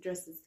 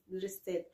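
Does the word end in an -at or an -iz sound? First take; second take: -iz; -at. First: The word ends with an English -iz plural sound. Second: The word ends with an Arabic -at plural sound. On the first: The speaker calls it right. "dresses D-R-E-S-S dresses يا حبيبتي" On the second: The speaker calls it wrong. "دريسات مش دريسز"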